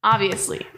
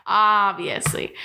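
First: Said in the usual way. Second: OBVIOUSLY stretched out slowly; drawn-out emphasis. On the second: Real, not acted. Host stressing the obvious tip, "Obviously" drawn out. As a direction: draw out "Obviously" at half speed. Same word repeated, drawn out.

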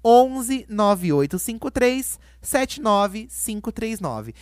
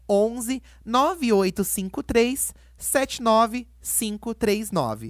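First: Loud first, then slow, digit by digit; TV host repeating a number. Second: Slow, digit by digit; reading digits one by one. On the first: Retold or imitated. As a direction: announce each digit like a TV host. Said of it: "Vou repetir igual a Eliana fazia nos programas dela". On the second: Shown as a demonstration. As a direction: spell out the number slowly. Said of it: "Posso passar o número?".

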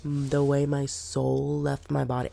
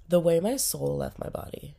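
First: Said in the usual way. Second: Breathy whisper. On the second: Shown as a demonstration. Sick vlogger whispering so she won't breathe on viewers. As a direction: whisper it so you don't breathe germs.

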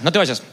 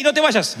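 First: Said in the usual way. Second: High, pleading to stay; NO raised high and urgent in no te vayas; urgent plea. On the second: Retold or imitated. The Lord begging the young man not to leave, high.

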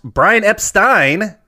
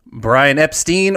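First: Epstein ending in "stine"; corrected pronunciation. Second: Epstein ending in "steen"; mispronounced surname. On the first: Host correcting the contestant's answer, Epstein pronounced "EP-stine". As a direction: say Epstein as EP-stine, rhyming with fine. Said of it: "properly pronounced". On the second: Host repeating the contestant's answer, Epstein mispronounced as "EP-steen". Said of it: "or properly pronounced". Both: Shown as a demonstration.

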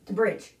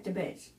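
First: Said in the usual way. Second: "bridge" fumbled, its r swallowed; tongue-tripped slip. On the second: Real, not acted. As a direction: stumble on "bridge", dropping the r. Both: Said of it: "I can't talk".

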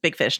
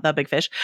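First: Said in the usual way. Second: "The" leaned on before Big Fish; stress on THE. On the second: Shown as a demonstration. Host corrects his own film title, stress on "The". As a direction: lean on the word "The".

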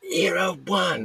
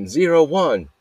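First: Very high strained yell, volume held back; high, rough screamed score call at contained volume; mock scream. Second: High, loud imitation of a yelled tennis score; raised-pitch referee yell; retold yell. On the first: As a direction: imitate screaming out a tennis score. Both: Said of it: "yelling it".

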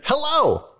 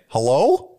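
First: "Hello." said high and dropping as a greeting; "Hello." as a bright greeting that falls; falling hello. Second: "Hello?" rising like a question. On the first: Reading out an email greeting as a falling hello. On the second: Rereading the greeting as an unsure rising hello. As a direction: ask "Hello?" with a rising tune. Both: Shown as a demonstration. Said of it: "Or it might have been".

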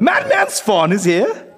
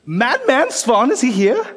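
First: Slow, higher eager question; rising, stretched disbelief; excited. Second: Slow, raised, eager question; drawn-out wide-eyed "Madman Svan"; excited. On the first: Same question repeated. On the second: Player asks in character. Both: Acted.

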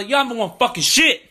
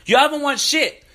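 First: Heated, raised and higher; rising into a real angry rant; angry outburst. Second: Higher and harder, near a yell; real furious retort to rival fans; angrier repeat. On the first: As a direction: let the anger spill over at rival fans. Angry rant at Clipper fans. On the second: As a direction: hammer it home even hotter. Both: Real, not acted.

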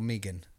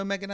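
First: "Megan" with a long ee in the first syllable. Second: "Megan" as MEG-un, first vowel as in "egg"; short-e Megan. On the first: Co-host correcting himself on a fighter's name, "Megan" said MEE-gun. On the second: Co-host surprised by the fight card, "Megan" said MEG-un. Querying how the name is said. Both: Real, not acted.

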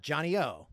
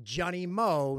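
First: "O" as a bare vowel; mistaken nickname pronunciation. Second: "Mo" with a clear M; correct nickname pronunciation. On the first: Quoting mom's mistake with the nickname, "O" without M. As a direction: say "Johnny O", dropping the M. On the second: Correcting mom on the curler's nickname, "Mo" with an M. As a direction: say "Johnny Mo", sounding the M slowly. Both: Shown as a demonstration. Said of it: "on the pronunciation".

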